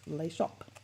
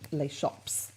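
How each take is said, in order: First: No final S sound is heard at the end. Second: A final S sound is heard at the end. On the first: The speaker calls it right. "you don't pronounce the S on Les, you don't pronounce it on the end of shop" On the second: The speaker calls it wrong. "I keep hearing people saying Les Shops"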